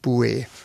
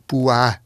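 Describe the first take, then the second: First: The vowel sounds like 'ue' rather than 'ua'. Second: The vowel is a diphthong sounding like 'ua'. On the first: The speaker calls it wrong. "also nicht Bue" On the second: The speaker calls it right. "Man spricht sie eigentlich als Bua aus"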